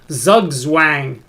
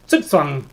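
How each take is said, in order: First: It begins with a Z sound, English style. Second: It begins with a TS sound, German style. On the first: The speaker calls it wrong. "in English, that looks like Zugzwang" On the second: The speaker calls it right. "think of the Z's as being T S's, and now you get Zugzwang"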